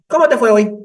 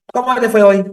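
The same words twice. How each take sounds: First: High, loud mother voice, stress on cómo; mother's question again. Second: High, loud bright-voiced mother asking; mother's cheery question. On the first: Retold or imitated. Psychologist shows how the mother asks, high and loud. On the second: Psychologist mimics mother greeting her son at lunch, high and loud. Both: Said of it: "Así".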